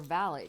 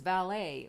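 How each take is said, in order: First: It is said with a British pronunciation. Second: It is said with an American pronunciation.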